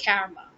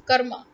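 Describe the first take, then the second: First: Karma as KARR-ma with flattened 'a' as in cat; worse mispronunciation. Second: Karma as KUR-ma, short and firm; correct pronunciation. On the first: Teacher rejecting it definitely, karma with a cat vowel. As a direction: front the first vowel of karma, like 'carry'. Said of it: "it's definitely not karma". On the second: Teacher giving the right form, firm KUR-ma. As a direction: hit a short 'uh' in karma. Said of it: "It's karma". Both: Shown as a demonstration.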